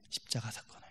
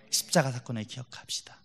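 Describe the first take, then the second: First: 십자가 사건을 repeated in a much softer whisper; whispered echo. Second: Said in the usual way. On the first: Shown as a demonstration. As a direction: let 십자가 사건을 fall to a breathy whisper. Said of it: "whispered repeat of the phrase". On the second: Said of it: "repeated phrase for emphasis".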